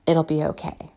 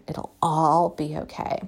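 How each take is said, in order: First: Said in the usual way. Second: Slower, softer, settling on all; a calm promise that it'll all be okay; gentle reassurance. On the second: Real, not acted. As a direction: reassure yourself and them, slowly.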